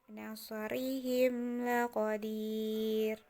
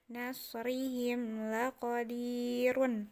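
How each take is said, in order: First: The phrase ends abruptly on the r. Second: The phrase ends with a final -run syllable. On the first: The reader stops at the end of the verse. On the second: The reading continues without stopping.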